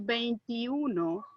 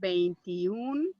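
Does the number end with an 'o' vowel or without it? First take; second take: with o; without o. First: The word ends with a final 'o' vowel. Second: The word ends on 'n' with no final vowel. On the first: The speaker calls it wrong. "You're not going to say veintiuno" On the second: The speaker calls it right. "You're going to say veintiún años"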